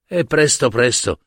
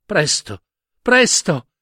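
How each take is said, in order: First: Said in the usual way. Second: Put-on presto, presto pleaded higher by a little girl, the second presto rising high; urgent child's plea. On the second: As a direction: hurry her grandma with a begging presto, presto. Girl begs grandmother, urgently.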